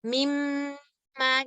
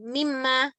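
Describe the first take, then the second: First: The nasal m sound is held longer. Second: The nasal m sound is cut short. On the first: The speaker calls it right. "kita tahan sedikit untuk bisa menyempurnakan si zaman gunnah" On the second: The speaker calls it wrong. "bukan mimma"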